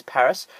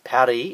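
First: Said in the usual way. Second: Paris said the French way, pa-REE, no final s; French pronunciation. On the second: Shown as a demonstration. Showing viewers the French name, pa-REE. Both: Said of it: "pronounced Paris in French".

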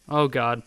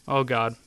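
No difference in how they are said.

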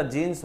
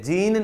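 First: Corrected form जीन्स, closing on S; plural final S. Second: जीन ending on N, higher pitch; the rejected form जीन, raised and without S; singular without S. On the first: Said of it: "जीन्स होता है". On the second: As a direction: stop जीन on the N, no S. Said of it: "जीन नहीं होता". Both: Shown as a demonstration.

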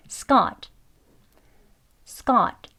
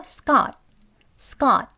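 First: "Scott" with tense k and released t; full Scott. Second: "Scott" with an unreleased final t; conversational Scott. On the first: Teacher saying it twice, full final t. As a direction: say "Scott" finishing on an audible t. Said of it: "Scott라고 발음돼요". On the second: Teacher showing everyday speech, t swallowed. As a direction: stop "Scott" short, t not heard. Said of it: "대화할 때는 주로". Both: Shown as a demonstration.

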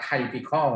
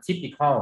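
First: Typical said as "tai-pi-kal", first syllable like "tie"; สำเนียงผิด typical ออกเสียงว่า ไท-พิ-คอล; wrong pronunciation. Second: Typical said as "ti-pi-kal", short "ti" like in tip; correct pronunciation. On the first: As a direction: say typical with a long "tai" sound, the common mistake. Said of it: "คำนี้ไม่ได้อ่านว่า typical". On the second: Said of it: "อ่านว่า typical". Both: Shown as a demonstration.

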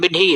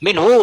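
First: มินฮี ending in "hee"; wrong reading minhi. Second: มินฮู ending in a long "hu"; correct reading minhu. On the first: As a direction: say มินฮี with an i vowel replacing the u. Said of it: "ไม่ใช่มินฮี ผมไม่อ่าน". (อ่าน มินฮี ลงท้ายเสียงอี) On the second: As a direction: say มินฮู with a u vowel at the end. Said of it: "แต่ผู้มันอ่านว่ามินฮีล่ะ". (อ่าน มินฮู ลงท้ายเสียงอู) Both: Shown as a demonstration.

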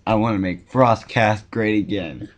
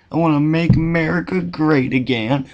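First: Said in the usual way. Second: Hammed-up Southern accent, higher-pitched; bad Southern accent. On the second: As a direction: put on a badly faked Southern twang. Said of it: "talking in a bad Southern accent".

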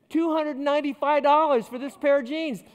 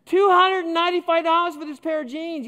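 First: Higher, louder, stunned exclamation; shocked at the price. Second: Much higher and louder, stressed from "Two"; outraged disbelief. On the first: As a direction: blurt out the price in disbelief. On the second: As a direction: repeat the price even more aghast, nearly shouting. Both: Retold or imitated. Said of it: "I nearly fainted".

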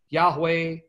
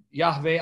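First: "Yahweh" said as YAH-way. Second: "Yahweh" said as YAH-vay; V in place of W in "Yahweh", YAH-vay. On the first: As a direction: clear W sound in "Yahweh", YAH-way. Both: Shown as a demonstration. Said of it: "however you wanna pronounce it".

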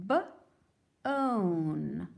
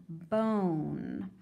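First: B-own split, onset held; sounded out. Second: Said in the usual way. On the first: Shown as a demonstration. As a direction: segment B-own slowly. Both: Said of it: "keep helping me".

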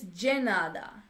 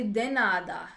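First: De nada with de as dji; Brazilian dji. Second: De nada with a hard d; de nada spoken the English way; plain de nada. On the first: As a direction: say de nada with de sounding like gee. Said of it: "I always say de nada". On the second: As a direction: say de nada, de as in deck. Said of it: "So it's de nada". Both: Shown as a demonstration.

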